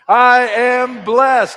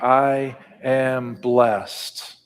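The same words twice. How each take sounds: First: It is shouted loudly at full volume. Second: It is said in a normal conversational voice. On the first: "shouting from the mountaintops" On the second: "in a everyday language, talking across the table voice"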